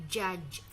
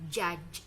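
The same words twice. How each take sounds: No difference in how they are said.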